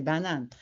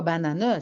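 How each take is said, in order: First: Said in the usual way. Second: "banane" as three syllables, ba-na-neu; final E sounded. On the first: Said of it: "c'est banane". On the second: Shown as a demonstration. Child correcting the adult's word, "banane" said ba-na-neu. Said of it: "c'est pas banane".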